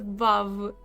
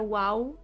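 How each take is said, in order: First: The word starts with a V sound. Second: The word starts with a W sound. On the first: The speaker calls it right. "It's a Vav. It's it's it's a solid Vav" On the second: The speaker calls it wrong. "it's not a wow"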